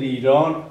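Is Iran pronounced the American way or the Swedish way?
Swedish. Iran is said with a Swedish pronunciation. The speaker calls it right. "Utan det heter Iran"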